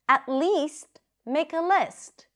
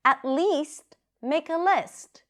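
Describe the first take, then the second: First: It is said in a dramatic, expressive way. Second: It is said in a dramatic, expressive way.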